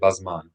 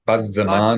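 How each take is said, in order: First: The word is said with two syllables. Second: The word is said with three syllables. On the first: "in modern Hebrew, people would often say" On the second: "classical Hebrew, we would pronounce this as"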